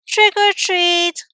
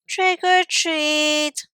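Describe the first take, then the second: First: It is said a little louder. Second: It is said very softly.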